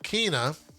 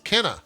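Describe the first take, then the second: First: The first vowel sounds like 'ee'. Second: The first vowel sounds like 'eh'. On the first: The speaker calls it wrong. "it's not Kina" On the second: The speaker calls it right. "it's Kenna"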